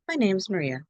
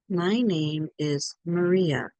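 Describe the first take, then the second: First: The words run together with a contraction. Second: Each word is said clearly and separately. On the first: "someone might say, ... Together" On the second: "very clear. Good. Please say it like this"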